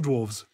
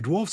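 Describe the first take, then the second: First: The word ends with a v sound. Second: The word ends with an f sound. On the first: "dwarfs or dwarves?" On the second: "dwarfs or dwarves?"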